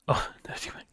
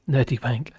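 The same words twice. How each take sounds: First: A snickering aside whispered to chat; whispered pun. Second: Said in the usual way. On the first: Real, not acted. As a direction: giggly whisper on nerdy wank. Muttering a rude pun on Erdogan.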